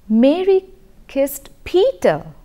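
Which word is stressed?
Peter. The word Peter carries the main stress. It answers who was kissed. "the stress or the prominence is being given to Peter"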